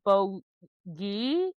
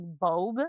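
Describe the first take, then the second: First: The word is said with two syllables. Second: The word is said with one syllable. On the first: This is how other sources say it. "but then it's like the Bogey in other places" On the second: This is how the audiobook says it. "I'm listening to the audiobook and it's like Bogue"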